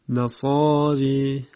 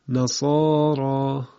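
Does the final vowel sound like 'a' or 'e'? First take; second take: e; a. First: The final vowel is tilted toward 'e'. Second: The final vowel is a plain open 'a'.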